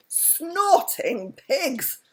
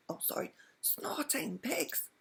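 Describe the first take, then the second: First: Slow, loud, high exclamation, not a whisper; high, drawn-out loud oath. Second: High, slow, soft whispered oath; whispered under the breath so the dragon won't hear. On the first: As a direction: blurt it out loud by mistake. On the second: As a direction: redo it as a hushed whisper. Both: A narrator's reading. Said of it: "said Mister Wumble with a whisper".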